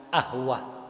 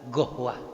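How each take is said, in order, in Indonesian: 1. Kata ini dimulai dengan bunyi vokal. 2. Kata ini dimulai dengan bunyi g. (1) "orang Mesir bilang ahwah" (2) "orang Saudi bilang gohwah"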